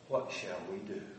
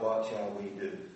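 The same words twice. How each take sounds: First: It is cried out in an anguished voice. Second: It is read in a flat, calm voice. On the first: The speaker calls it right. "I can't imagine how it sounded when they cried out" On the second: The speaker calls it wrong. "We read it just like we read, you know"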